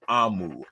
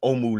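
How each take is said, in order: First: The name starts with an 'ah' vowel. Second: The name starts with an 'oh' vowel. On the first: The speaker calls it right. "A A H M O O is the pronunciation" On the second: The speaker calls it wrong. "I've been saying it wrong all morning"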